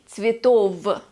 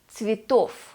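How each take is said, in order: First: The word ends with a voiced v sound. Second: The word ends with a voiceless f sound. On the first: The speaker calls it wrong. "We do not say цветов" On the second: The speaker calls it right. "V at the end of the word turns into f"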